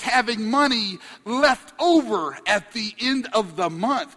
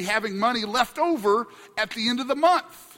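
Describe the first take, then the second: First: The phrase is spoken slowly and deliberately. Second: The phrase is spoken at a normal pace.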